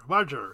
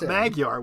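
First: The middle consonant is a soft J sound. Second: The middle consonant is a hard G sound. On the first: The speaker calls it right. "it's pronounced like we do a soft J sound" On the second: The speaker calls it wrong. "but it's not Magyar"

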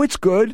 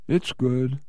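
First: It is said with an enthusiastic, lively tone. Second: It is said with a flat, unenthusiastic tone. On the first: The job is genuinely good. "If somebody enthusiastically says" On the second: The job is not really good. "that's very different than"

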